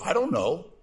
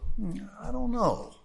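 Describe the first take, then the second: First: It sounds curt and dismissive. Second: It sounds thoughtful and polite.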